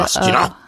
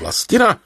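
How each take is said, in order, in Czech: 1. Jméno Vlastina je vysloveno tvrdě a ostře. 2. Jméno Vlastina je vysloveno vřele a jemně. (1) "jde to nějak přitvrdit ta Vlastina ještě?" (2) "ta nejhezčí intonace teda toho vašeho jména je Vlastina"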